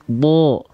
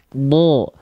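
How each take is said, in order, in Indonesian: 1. Vokalnya bunyi berat yang condong ke o. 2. Vokalnya bunyi berat yang condong ke o.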